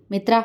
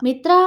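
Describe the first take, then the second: First: Serious, commanding summons; stern raised call. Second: Doubtful call. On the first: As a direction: call her name sternly. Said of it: "ശബ്ദമുയർത്തി ഗൗരവത്തോടെ അവളെ വിളിച്ചു". (ഗൗരവത്തോടെ ശബ്ദമുയർത്തി) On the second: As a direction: call her name questioningly. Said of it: "സംശയത്തോടെ അവളെ വിളിച്ചു". (സംശയത്തോടെയുള്ള വിളി) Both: A narrator's reading.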